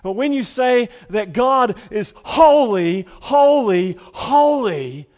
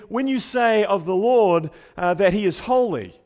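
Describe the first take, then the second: First: Full shout, high and loud on each holy; crying out holy with all your force. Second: Said in the usual way. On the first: Shown as a demonstration. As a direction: proclaim it at the top of your voice. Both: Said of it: "now you're really shouting it".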